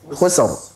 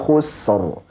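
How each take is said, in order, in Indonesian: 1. Bunyi s dipotong tiba-tiba. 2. Bunyi s panjangnya sedang.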